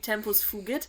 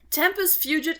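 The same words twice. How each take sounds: First: It is said with German-style Latin vowels. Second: It is said with English-style Latin vowels. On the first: "the way I would have learned it" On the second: "probably closer to what it would really be like"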